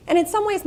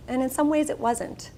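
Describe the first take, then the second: First: In some ways with some lifted high and rising; stress on some. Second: And in some ways it wasn't with some pressed and falling; stress on some. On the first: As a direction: set up the contrast by pitching some up. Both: Real, not acted. Contrasting two sides.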